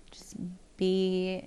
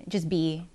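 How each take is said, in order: First: Just be whispered with no voice. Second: Said in the usual way. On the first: Acted. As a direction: breathe the words just be as a whisper. Repeating a calm motto.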